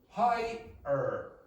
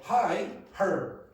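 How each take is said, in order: First: The 'er' ending starts directly with the vowel. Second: An h sound is added before the 'er' ending. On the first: The speaker calls it right. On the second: The speaker calls it wrong.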